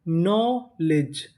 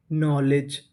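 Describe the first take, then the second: First: knowledge slowly in two stretched parts; syllable by syllable. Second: Said in the usual way. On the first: Shown as a demonstration. Teacher assembles a word for learners, knowledge slowly in pieces. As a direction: hold the first half of knowledge, then add the second. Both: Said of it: "तो meaning क्या बनी?".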